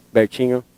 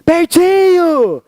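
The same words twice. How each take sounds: First: Low, soft, stern call of the name; angry mom on the phone; mom's angry voice. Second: High, very slow, stretched happy call; delighted mom calling her son; mom's happy voice. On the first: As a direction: say the name like a cross mother. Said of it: "Dona Ana com voz de brava". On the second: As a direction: sing out the name like an overjoyed mother. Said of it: "Minha mãe tava com voz de feliz". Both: Retold or imitated.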